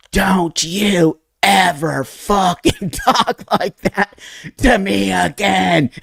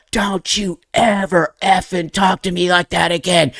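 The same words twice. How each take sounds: First: Slow, high, strained mock yell; drawn-out high-pitched angry outburst, without full volume; retold yell. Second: High mock-angry telling-off; high, strained retold outburst at normal pace; retold yell. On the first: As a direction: re-enact yelling back, stretching each word. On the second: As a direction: re-enact snapping back at dad, without full volume. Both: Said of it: "I literally yelled back at my dad".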